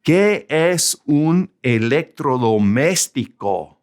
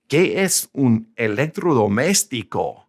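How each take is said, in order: First: Slow, careful Spanish with "Qué" given weight; slow Spanish model sentence. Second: Said in the usual way. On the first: Shown as a demonstration. Teacher reads a child's question slowly to learners. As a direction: read "¿Qué es un electrodoméstico?" slowly, stressing "Qué". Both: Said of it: "Let's put a big word in Spanish up here".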